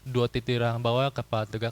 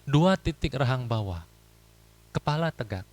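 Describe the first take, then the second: First: Somewhat faster speech with shorter pauses. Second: Slow speech with long pauses between phrases. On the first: Shorter gaps leave less room for wandering thoughts. The speaker calls it right. "Jadi agak lebih cepat, tapi bukannya juga ngebut" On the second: Long gaps let the mind wander off. The speaker calls it wrong. "ngomongnya pelan, ... Jedanya panjang"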